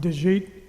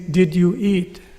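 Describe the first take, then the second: First: The words are slurred together into one sound. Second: Each word is said clearly and separately. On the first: The speaker calls it wrong. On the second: The speaker calls it right.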